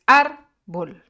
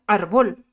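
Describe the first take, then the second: First: "árbol" as a loud, slow AR, then bol; stress on first syllable. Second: "árbol" misstressed as ar-BOL, loud; stress on last syllable. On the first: Teacher showing the penultimate stress, "árbol" stressed on AR. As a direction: split "árbol" and punch the AR. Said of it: "se encuentra en la penúltima sílaba". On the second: Teacher showing the word without its accent, "árbol" said ar-BOL. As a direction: shift the punch in "árbol" onto BOL. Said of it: "Si no diría árbol". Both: Shown as a demonstration.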